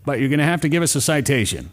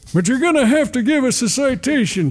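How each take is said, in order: First: It is said in the speaker's ordinary voice. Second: It is said in a put-on old man's voice. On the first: "I didn't do my grandfather voice on that one" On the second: "my grandfather voice"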